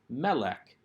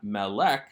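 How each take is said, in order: First: The stress is on the first syllable. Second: The stress is on the second syllable. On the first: The speaker calls it right. "the accent is on the first syllable of the noun" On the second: The speaker calls it wrong. "So this is not melek"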